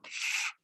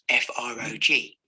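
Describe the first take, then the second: First: Each letter is said as its sound. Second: Each letter is said as its name. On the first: The speaker calls it right. "using the sounds rather than the letter names" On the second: The speaker calls it wrong. "rather than"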